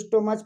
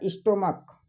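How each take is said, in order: First: The word ends with a 'ch' sound. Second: The word ends with a 'k' sound.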